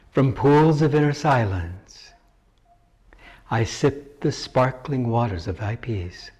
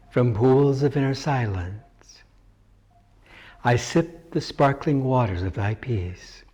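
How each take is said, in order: The two takes are said the same way.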